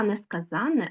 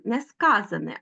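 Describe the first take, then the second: First: Несказане said with stress on -ZAN- and long n; stress on the suffix. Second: Несказане stressed on -SKA-; stress on the root. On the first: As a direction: say несказане as ne-ska-ZÁN-ne. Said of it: "в наголошеному суфіксі". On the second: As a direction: say Несказане as ne-SKÁ-za-ne. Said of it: "звертайте увагу на наголос". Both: Shown as a demonstration.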